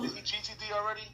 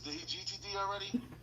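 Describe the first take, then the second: First: It is said in his normal voice. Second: It is said in an imitation of Tommy.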